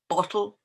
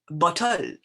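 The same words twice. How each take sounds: First: The stress falls on its usual syllable. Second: The stress falls on an unusual syllable.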